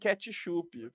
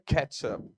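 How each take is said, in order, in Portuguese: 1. É pronunciado do jeito do português brasileiro. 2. É pronunciado do jeito inglês. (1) "e não ketchup, como a gente faz aqui no Brasil" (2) "a gente fica achando que a pala a pessoa pronuncia ketchup"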